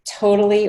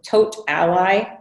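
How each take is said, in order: First: It is said like the word 'totally'. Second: It is said as 'tote' plus 'ally'. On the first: "Totally or to" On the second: "I normally pronounce it Tote Ally"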